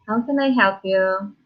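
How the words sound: It is said in a friendly, smiling tone.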